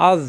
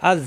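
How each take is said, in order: First: আজ with a heavy, full z sound; thick za. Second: আজ with a thin soft z, tongue tip at the teeth; soft dhal. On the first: Teacher joining hamza to za, আজ with a thick z. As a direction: make the z in আজ thick. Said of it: "জ মোটা". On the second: Teacher joining hamza to dhal, আজ with a soft z. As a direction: end আজ softly on the tongue tip. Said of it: "জিহ্বার আগা দাঁতের আগায় নরম করে". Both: Shown as a demonstration.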